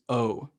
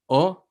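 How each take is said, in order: First: The O vowel is longer, rounded and diphthong-like. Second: The O vowel is short, pure and less rounded. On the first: "It kind of turns into a bit of a diphthong in um, in English" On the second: "O versus O"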